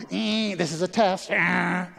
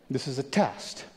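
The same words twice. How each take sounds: First: Light mock of an old TV broadcast test; TV test announcement. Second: Said in the usual way. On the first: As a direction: play the end-of-night station test, a bit higher. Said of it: "When I was growing up at the T V". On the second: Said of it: "You should hear a little buzzard here".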